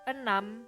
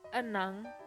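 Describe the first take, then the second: First: The word ends in an m sound. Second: The word ends in an ng sound.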